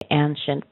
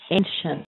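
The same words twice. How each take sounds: First: The first vowel is a short A sound. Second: The first vowel is a long A sound. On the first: The speaker calls it wrong. "I don't think I've heard people say ancient" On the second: The speaker calls it right. "It's actually a long A"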